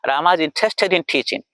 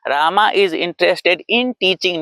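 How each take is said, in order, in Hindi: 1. शब्द दो आपस में जुड़े हिस्सों में बँटे हैं। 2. हर शब्द अलग-अलग बोला गया है, बिना समूह बनाए। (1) "दो दो दो ग्रुप में बोला" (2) "नहीं बोल रहा"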